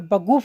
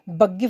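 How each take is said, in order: First: The middle vowel sounds like 'oo'. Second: The middle vowel sounds like 'ee'. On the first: The speaker calls it right. "बगूफ बोलना" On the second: The speaker calls it wrong. "बगीफ नहीं बोलना"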